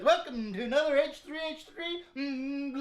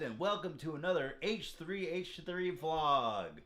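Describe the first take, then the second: First: It is said with louder, higher energy. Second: It is said with calmer, lower energy.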